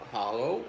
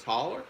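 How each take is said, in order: First: "hollow" ending in a long o; standard hollow. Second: "holler" ending in an -er sound; dialect holler. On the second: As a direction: say "holler" with an r-coloured final syllable. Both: Shown as a demonstration. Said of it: "There's two terminations".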